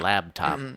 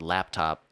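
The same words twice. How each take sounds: First: The middle consonant is a b sound. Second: The middle consonant is a p sound.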